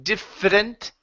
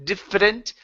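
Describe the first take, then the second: No difference in how they are said.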